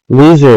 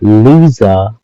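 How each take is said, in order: First: The word is said in a harsh, unfunny way. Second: The word is said in a playful, funny way. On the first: It is a real insult. The speaker calls it wrong. "Loser is not funny" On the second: It is a joking tease. The speaker calls it right. "but loser is funny"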